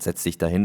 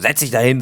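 First: The command is said in a friendly, relaxed tone. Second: The command is said in a harsh, rude tone. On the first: The request was not meant unkindly. "fand ich jetzt nicht unhöflich" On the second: The request is a rude order. "das war ja nicht so"

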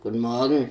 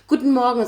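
First: The greeting sounds flat and grumpy. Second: The greeting sounds bright and cheerful. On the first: The speaker is unfriendly in the morning. "wie die Frau unfreundlich ist am Morgen" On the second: The speaker is happy to greet someone. "aber super fröhlich"

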